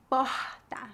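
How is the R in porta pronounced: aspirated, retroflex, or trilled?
aspirated. The R is a breathy, aspirated sound. This is how people speak in Rio de Janeiro. "a pronúncia do R é bem aspirada"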